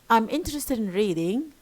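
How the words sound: The voice falls then rises.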